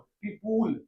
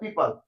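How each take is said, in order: First: The second syllable has a full 'u' vowel. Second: The second syllable is reduced to a short 'pl'. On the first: The speaker calls it wrong. "इस word को तो गलत pronounce कर देता है" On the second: The speaker calls it right. "इसका सही pronunciation होता है पीपल"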